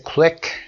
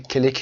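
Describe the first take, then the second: First: The k and l are joined with no vowel. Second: A short vowel separates the k and l. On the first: The speaker calls it right. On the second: The speaker calls it wrong.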